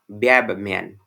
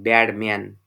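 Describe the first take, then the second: First: The word 'bad' ends in a b sound. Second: The word 'bad' ends in a d sound. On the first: "assimilated pronunciation is" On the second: "Actual pronunciation is this one"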